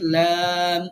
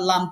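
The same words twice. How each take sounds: First: The vowel is long and drawn out. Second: The vowel is short and not drawn out. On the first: The speaker calls it right. "হরফের সঠিক উচ্চারণ হচ্ছে লাম" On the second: The speaker calls it wrong. "আমরা লাম পড়ি স্বাভাবিকভাবে"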